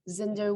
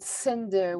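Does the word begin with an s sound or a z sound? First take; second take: z sound; s sound. First: The word begins with a z sound. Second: The word begins with an s sound. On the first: "say zinder with a z sound" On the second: "would call it cinder with a s sound"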